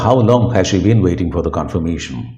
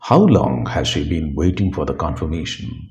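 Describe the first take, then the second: First: The sentence is spoken quickly. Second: The sentence is spoken at a normal pace. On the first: "സ്പീഡിൽ പറഞ്ഞാൽ" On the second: "സാധാരണ പോലെ പറഞ്ഞാൽ മതി"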